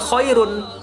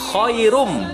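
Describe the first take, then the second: First: The word ends with an n sound. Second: The word ends with an m sound. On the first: The speaker calls it wrong. "bukan khairun" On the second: The speaker calls it right. "N-nya tidak lagi dibaca, melainkan langsung diganti menjadi huruf M"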